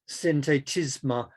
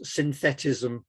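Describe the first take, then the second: First: The word is pronounced the French way. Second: The word is pronounced the English way.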